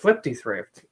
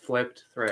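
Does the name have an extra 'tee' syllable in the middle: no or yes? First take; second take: yes; no. First: An extra 'tee' syllable comes after 'flip'. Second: No extra syllable comes after 'flip'. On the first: The speaker calls it wrong. "it is not pronounced that way" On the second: The speaker calls it right. "It's just flipped thrift"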